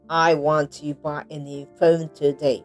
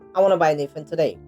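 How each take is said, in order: First: Every word gets equal, even stress. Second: Key words are stressed and small words reduced. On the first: The speaker calls it wrong. "Not like ... Sounds robotic" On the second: The speaker calls it right. "American stress"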